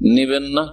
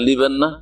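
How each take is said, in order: First: The first word begins with an N sound. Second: The first word begins with an L sound. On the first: This is the standard form of the language. "শুদ্ধ ভাষা" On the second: This is a regional dialect form. "কোন কোন অঞ্চল ভাষায়"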